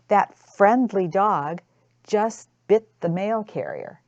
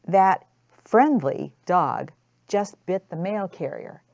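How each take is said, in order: First: "friendly" slowed and leaned on, ironic; sarcastic stress on friendly. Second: "friendly" lifted and punched, ironic; sarcastic lean on "friendly"; stress on friendly. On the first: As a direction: drag out "friendly" with a sarcastic edge. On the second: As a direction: hit "friendly" as if in scare quotes. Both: Shown as a demonstration. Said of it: "you emphasize the word that you put in parentheses".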